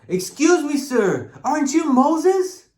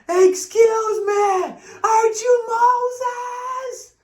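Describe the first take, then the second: First: It is said somewhat louder. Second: It is said loudest of all.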